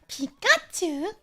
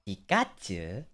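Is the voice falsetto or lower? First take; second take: falsetto; lower. First: It is said in a high falsetto. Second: It is said in a lower voice.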